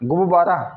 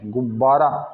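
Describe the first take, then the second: First: The b sound in the middle is single. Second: The b sound in the middle is doubled. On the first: The speaker calls it wrong. "यदि मान लीजिए आधा बाना हो" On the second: The speaker calls it right. "ब को आधा करा और ये ब पूरा"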